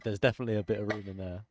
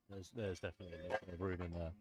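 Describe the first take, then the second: First: Loud and fast into the mic; shouted. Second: Quiet aside. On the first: Shown as a demonstration. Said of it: "I shouted that this time". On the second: Real, not acted. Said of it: "I just said that away from the mic".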